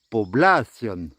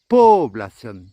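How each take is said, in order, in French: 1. L'accent est sur l'avant-dernière syllabe. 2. L'accent est sur la première syllabe. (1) "s'il n'y avait pas d'accent, on dirait población" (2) "s'il y avait un accent sur le premier O, eh bien on dirait población"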